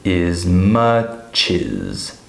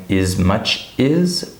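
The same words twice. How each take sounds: First: Very slow IZ-MUH-CHIZ; linking. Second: MUCH and IS kept apart as separate words; slow, break after MUCH, rising IS; unlinked. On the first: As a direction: move the CH over to start CHIZ. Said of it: "we would say". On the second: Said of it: "Instead of saying". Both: Shown as a demonstration.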